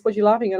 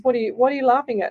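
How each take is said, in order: First: Said in the usual way. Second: Quick, higher, a touch impatient "what are you laughing at"; the client pressing again, mildly irritated; mildly exasperated. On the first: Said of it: "And, and he says". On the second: Retold or imitated. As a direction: push the question faster, getting a bit fed up. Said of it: "I just started laughing even more".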